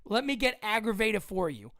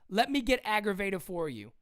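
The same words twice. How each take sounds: The two takes are said the same way.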